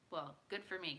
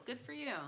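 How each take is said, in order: First: "good" stressed, "me" level. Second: "Good for you." with "you" lifted; stress on you. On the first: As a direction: open "Well, good for me." with a firm "good". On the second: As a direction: raise "you" at the end of "Good for you.". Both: Real, not acted.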